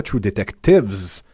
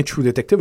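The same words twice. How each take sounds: First: Detectives ending on a voiced S; plural S on Detectives. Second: Detective ending cleanly on V; singular Detective, no S. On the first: Host rejecting the wrong plural title, S stressed on Detectives. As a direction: slowly sound the extra S in Detectives. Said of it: "bel et bien True Detective au singulier". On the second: Host correcting the title to singular, Detective without S. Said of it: "au singulier". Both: Shown as a demonstration.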